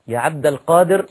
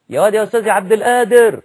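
First: القادر said with a clear ق; correct pronunciation. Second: Loud high call, القادر said as ادر with no ق; careless street call. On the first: Preacher showing the acceptable way to call the name, carefully. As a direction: call عبد القادر properly, letter by letter. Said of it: "هو اللي ينفع". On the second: A man shouting for his friend, high and loud, ق dropped. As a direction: yell it across the alley, dropping the ق in القادر. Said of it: "ما ينفعش". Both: Shown as a demonstration.

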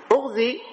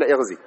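First: "اغزي" begun with u, "ughzi", pitched high; damma on the hamza. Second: "اغزي" begun with i, "ighzi", pitched lower; kasra on the hamza. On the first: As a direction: open "اغزي" on a short u, voice lifted. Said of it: "فلذا قال لك بضم". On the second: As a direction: open "اغزي" on a short i, voice dropping. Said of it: "وبعضهم جوز فيها الكسر أن تقول". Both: Shown as a demonstration.

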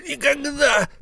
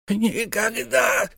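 First: Even higher shouted never; shouted refusal. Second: Very high, very slow cry; stubborn refusal. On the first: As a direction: shout the refusal at full pitch. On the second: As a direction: drag out the refusal. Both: Acted. Miser refuses twice.

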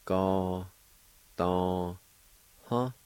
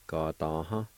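First: "Ga, da, Huh" in held, separate syllables; syllable-by-syllable pronunciation. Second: Said in the usual way. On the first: Shown as a demonstration. Teacher showing learners how filth is pronounced, syllable by syllable. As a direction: sound out "Ga, da, Huh" with clear gaps. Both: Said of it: "It's pronounced like this".

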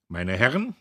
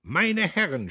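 First: Speech opening. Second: Higher, louder strained yell; strained shout. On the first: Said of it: "Dann begann er". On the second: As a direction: force it over the roaring crowd. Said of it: "schrie er angestrengt". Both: A narrator's reading.

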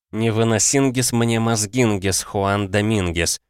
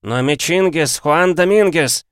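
First: Said in the usual way. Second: High-pitched, cheerful croaker; croaking voice. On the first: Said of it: "по-испански". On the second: A narrator's reading. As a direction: croak it out high, stretching the name. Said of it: "донёсся квакающий голос". (высокий квакающий голос)

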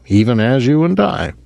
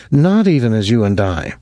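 First: Said in the usual way. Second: "Not" hit first and firm, rest falling; stress on Not. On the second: A narrator's reading. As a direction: lean hard on "Not" to contradict. Gretchen corrects Rudolph's phrase.

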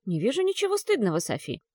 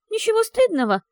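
First: Calm, even, reassuring reply; steady and composed; restrained. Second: Ничего стыдного wheezed very high and loud; ничего stressed in disbelief, gurgling; hoarse incredulous. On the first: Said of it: "сдержанно ответила Джилл". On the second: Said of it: "прохрипела Софи с бульканьем в горле". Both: Acted.

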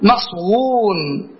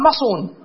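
First: "مصون" drawn out very slowly as maṣ-wūn, w sounded; rare uncontracted form. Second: "مصون" said as maṣūn, no w glide; regular contracted form. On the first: Teacher answering his own question on the rare form, "مصون" slowly as maṣ-wūn. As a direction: stretch "مصون" into maṣwūūn with a full w. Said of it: "ندر أن يقال إيش؟". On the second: Teacher giving the regular form, "مصون" shortened to maṣūn. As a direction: say "مصون" in two simple syllables, ma-ṣūn. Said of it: "والقياس أن يقال مصون بالحذف". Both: Shown as a demonstration.

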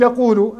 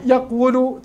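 First: Said in the usual way. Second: "يقول" said yaq-wu-lu; closed qaf then wu-lu in "يقول"; underlying form. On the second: Shown as a demonstration. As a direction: sound the waw as a consonant in "يقول". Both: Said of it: "ثم تعود تقول".

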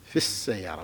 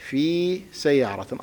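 First: في السيارة with the ya of في dropped, fis-sayyara. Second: في سيارة with the long ya of في clearly sounded, fi sayyara; ya pronounced. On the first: Teacher shows students the silent ya in في السيارة. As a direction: run في into السيارة with no ya. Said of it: "ما أنطق الياء". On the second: Teacher shows students the ya heard in في سيارة. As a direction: say في fully as fi before سيارة. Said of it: "أنطق الياء". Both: Shown as a demonstration.

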